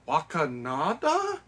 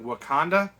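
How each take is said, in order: First: The word is said with four syllables. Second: The word is said with three syllables. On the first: The speaker calls it wrong. "adding in an extra syllable" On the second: The speaker calls it right. "tries to pronounce the word Wakanda"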